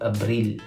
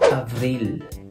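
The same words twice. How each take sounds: First: The word is pronounced the Tagalog way. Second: The word is pronounced the French way.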